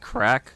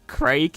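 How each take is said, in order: First: The name has a short vowel and ends in k. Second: The name has a long vowel and ends in g. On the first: The speaker calls it right. "it's actually pronounced crack" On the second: The speaker calls it wrong. "I'm pronouncing it Craig"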